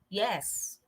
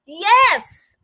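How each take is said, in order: First: It sounds bored and uninterested. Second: It sounds very excited, fast and loud.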